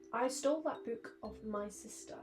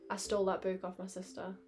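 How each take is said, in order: First: Each word is pronounced carefully and distinctly. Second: The words are run together in relaxed speech. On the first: "I enunciate so much more on a stream" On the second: "Normally I'd say like"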